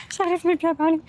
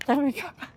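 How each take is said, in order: First: Higher and louder, fed up with herself; exasperated outburst. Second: Said in the usual way. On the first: Real, not acted. Vlogger venting to viewers, exasperated. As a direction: blurt it out, annoyed at stumbling.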